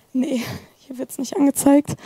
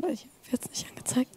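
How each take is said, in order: First: Said in the usual way. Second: Fast unvoiced whisper to himself; whispered aside. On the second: Real, not acted. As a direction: mutter it under your breath, quickly. Muttering to himself during demo.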